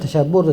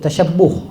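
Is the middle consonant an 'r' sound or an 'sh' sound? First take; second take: r; sh. First: The middle consonant sounds like an 'r'. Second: The middle consonant sounds like 'sh'. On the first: The speaker calls it wrong. "bukan tasyabbuh tu" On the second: The speaker calls it right. "Ish tu bukan R"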